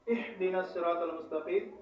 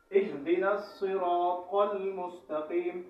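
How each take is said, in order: First: Quick recitation with the wrong h in اہدنا; mistaken letter ha. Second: Slow, careful recitation with a true h in اہدنا; correct pronunciation. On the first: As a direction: swap the h of اہدنا for the other ha, unstretched. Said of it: "ہا سے تبدیل کر دیتے ہیں". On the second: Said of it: "صحیح تلفظ". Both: Shown as a demonstration.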